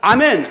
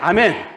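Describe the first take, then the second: First: It is said strongly and loudly. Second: It is said softly and weakly.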